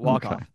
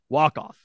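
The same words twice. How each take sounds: First: The stress is on the word off. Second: The stress is on the word walk. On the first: The speaker calls it wrong. "Not walk off" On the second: The speaker calls it right. "It's the accents on the walk"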